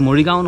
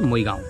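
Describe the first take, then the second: First: The r sound is pronounced in the word. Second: The r sound is dropped from the word. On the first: This is the formal way of saying it. "নহয়" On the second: This is how it is said in local speech. "আমাৰ শব্দবোৰত ৰ উচ্চাৰণ নহয় যেতিয়া আমি স্থানীয়ভাৱে কথা পাতোঁ"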